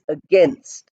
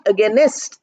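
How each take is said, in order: First: The word ends in a tight nst cluster. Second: An extra vowel is inserted before the final st. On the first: The speaker calls it right. "the word is against" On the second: The speaker calls it wrong. "The word is not against"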